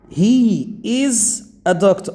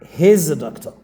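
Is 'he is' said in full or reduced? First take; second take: full; reduced. First: He and is are said as two full words. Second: He and is merge into one short syllable. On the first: The speaker calls it wrong. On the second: The speaker calls it right.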